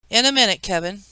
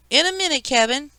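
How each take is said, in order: First: Lightly squeaky aunt's voice. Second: Very high imitation of a squeaky aunt; mocking squeak. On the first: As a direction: put off a child with a slight squeak. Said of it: "she squeaked". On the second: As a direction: mimic an adult in an exaggerated squeak. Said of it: "Kevin imitated Aunt Leslie's squeak". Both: A narrator's reading.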